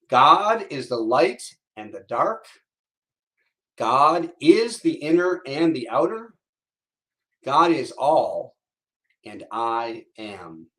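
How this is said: It is said with strong intention and purpose.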